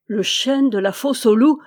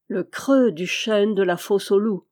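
First: Louder, stammering in shock. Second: Steady, deliberate repeat of creux; a measured knowing repeat; calm repetition. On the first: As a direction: blurt it out, stunned and faltering. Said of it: "balbutia-t-il". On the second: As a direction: lean on creux, calmly insisting. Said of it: "répéta Pélo-Rouan". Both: A narrator's reading.

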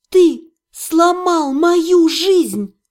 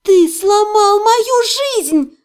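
First: Slow, drawn-out accusation; slow, heated reproach; accusing. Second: High, loud, drawn-out wail; anguished high-pitched yell. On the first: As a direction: weigh out each word in anger. Heroine accuses orc, slow and loud. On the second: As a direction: cry it out at full pitch. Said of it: "завопила я". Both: A narrator's reading.

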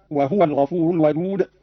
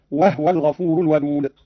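First: Said in the usual way. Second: "وهو" with the haa vowelless, "wahwa"; silent-vowel haa. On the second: Shown as a demonstration. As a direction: close the haa straight onto the waw in "وهو". ("وهو" بإسكان الهاء) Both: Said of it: "قرأ قالون بإسكان الهاء هكذا".

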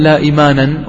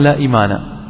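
First: إيمانا said with a clear nunation ending, imanan; wrong form with tanween. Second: إيمانا said plainly as imana, no final n; correct form without tanween. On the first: Teacher shows students the wrong form إيمانا, ending -anan. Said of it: "ولم يقل". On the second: Teacher gives students the correct form إيمانا, no final n. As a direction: drop the nunation: إيمانا ends in open -a. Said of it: "وإنما قال". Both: Shown as a demonstration.

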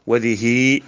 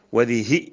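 First: وذه with a long drawn-out final "hii"; lengthened final vowel. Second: وذه with a short, clipped final "hi"; short final vowel. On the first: Teacher listing the feminine demonstratives, long final vowel on وذه. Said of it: "بمدها". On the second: Teacher listing the feminine demonstratives, short final vowel on وذه. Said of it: "بقصر الهاء". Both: Shown as a demonstration.

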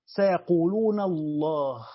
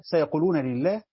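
First: Slow, drawn-out سيقولون الله with full Allah; "سيقولون الله" in Abu Amr's reading, الله pronounced Allahu. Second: سيقولون لله with لله said lillah, no alif; "سيقولون لله" read the common way, لله as lillah; majority reading. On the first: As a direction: stretch it and say الله as Allah, not lillah. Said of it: "قرأ أبو عمرو". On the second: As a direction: say لله as lillah, the short li- form. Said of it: "الجمهور بيقرأوها كما نقرأها". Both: Shown as a demonstration.

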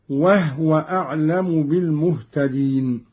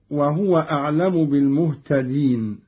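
First: وهو as "wahwa", no vowel on the ha; silent-vowel ha. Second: Said in the usual way. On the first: Shown as a demonstration. Teacher demonstrating Qalun's reading, وهو with sukun on ha. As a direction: close وهو on a breathed h before wa. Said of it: "بإسكان الهاء". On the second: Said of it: "قرأ قالون بإسكان الهاء".

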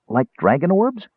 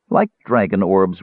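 First: High, curious interjection, rising at the end; eager kender query; interrupting kender. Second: Curt mage, annoyed at being interrupted; snapped. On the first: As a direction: cut in with a high, innocent question. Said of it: "Tass interrupted". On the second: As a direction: throw the words back testily. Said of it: "Raistlin snapped, irritated at the interruption". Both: A narrator's reading.

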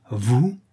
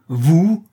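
First: A first, held-back vous?; countess's first stunned vous? before the outburst; stunned question. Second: Vous? flung high and loud, rising; horrified cry. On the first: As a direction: ask vous? in disbelief. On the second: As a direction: shriek vous? in horror. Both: A narrator's reading. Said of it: "répéta la comtesse terrifiée".

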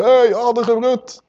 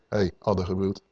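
First: "Hey, addergebroed" pitched high and drawn out slowly; mock street shout. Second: "Hey, addergebroed" said low and soft, almost to himself; a quiet aside, no need to shout; quiet rebuke. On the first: Preacher shows what shouting it on the street would sound like, mock call. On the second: Yeshua quietly calling the Pharisee a brood of vipers, hushed. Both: Shown as a demonstration. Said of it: "Dat hoeft hij niet op de straat te schreeuwen".

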